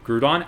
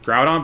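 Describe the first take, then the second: First: Groudon said like "crouton", as "GROO-don"; childhood Groudon mispronunciation. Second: Groudon said as "GROW-don", rhyming with "cow"; standard Groudon pronunciation. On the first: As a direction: give Groudon an "oo" vowel, questioning. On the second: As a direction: say Groudon with an "ow" vowel. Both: Shown as a demonstration. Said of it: "pronounced like Crouton".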